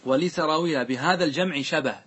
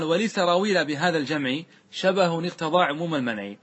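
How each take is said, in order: First: Said in the usual way. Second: Sing-song reading of the grammar verse; verse recitation. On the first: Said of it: "أي جمع يقصد". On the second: Acted. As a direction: recite the verse with a steady measured cadence. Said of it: "ثم قال".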